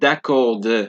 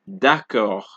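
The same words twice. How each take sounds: First: The final D sound is pronounced. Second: The final D is silent. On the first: The speaker calls it wrong. "it is not d'accord" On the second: The speaker calls it right. "It is ... d'accord"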